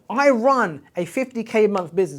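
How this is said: It is said with passion and conviction. The speaker truly believes it. The speaker calls it right. "Say it out loud with passion, with integrity, with belief"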